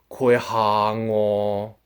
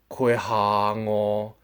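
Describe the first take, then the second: No difference in how they are said.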